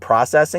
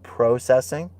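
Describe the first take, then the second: First: It is pronounced in an American way. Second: It is pronounced in a British way. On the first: This is how he spoke before. "He stopped saying processing" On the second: He adopted this to sound British. "this British version of himself"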